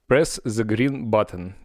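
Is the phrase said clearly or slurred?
clearly. It is said clearly, in plain English.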